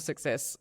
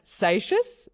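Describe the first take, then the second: First: The name sounds like the word success. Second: The name does not sound like success. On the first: This is how the rider says his own name. "it's like you want to say success. That's that's his name" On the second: This is a common pronunciation people use. "is one that I, I hear a lot"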